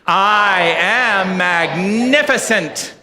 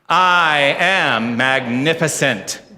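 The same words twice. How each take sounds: First: It is said with much stronger feeling. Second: It is said with moderate feeling.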